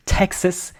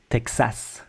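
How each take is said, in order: First: Texas higher, as TEK-sus; English Texas with reduced A; English pronunciation. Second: Texas as tek-SAS with full A; French Texas, soft T and open ending; French pronunciation. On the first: Teacher sums up the first point, English Texas. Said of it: "in English you say Texas". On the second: Teacher sums up the first point, French Texas. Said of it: "in French we say Texas". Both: Shown as a demonstration.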